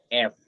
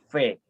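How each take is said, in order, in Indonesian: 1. Vokalnya ada sebelum konsonan. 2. Vokalnya ada setelah konsonan. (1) "Kalau dalam bahasa Indonesia kan F, ya kan? E-nya di depan" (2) "E-nya di belakang. Menjadi V, bukan F"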